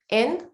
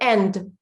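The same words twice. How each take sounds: First: The final D is very soft, barely heard. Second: The final D is strong and clearly released. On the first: The speaker calls it wrong. "That's how I would say end. And I'm pronouncing the D" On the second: The speaker calls it right. "But you should do end"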